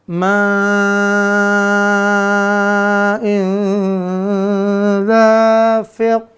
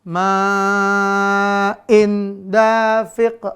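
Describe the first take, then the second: First: The n sound is blurred and nasalized. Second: The n sound is pronounced clearly. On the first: The speaker calls it right. "harus ikhfa di sini" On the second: The speaker calls it wrong. "Jangan sampai dibaca izhar"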